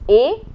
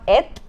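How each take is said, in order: First: The word ends on a vowel, no t. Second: The word ends with an audible t sound. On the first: The speaker calls it right. "it's a" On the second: The speaker calls it wrong. "the pronunciation is not et"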